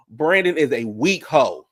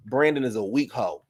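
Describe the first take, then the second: First: Emphatic. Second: Said in the usual way. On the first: Real, not acted. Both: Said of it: "repeated for emphasis".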